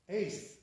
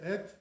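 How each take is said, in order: First: The vowel sounds like 'ay' in ace. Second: The vowel sounds like 'eh' in bet. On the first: The speaker calls it wrong. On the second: The speaker calls it right. "by us, it's not like that. It's et"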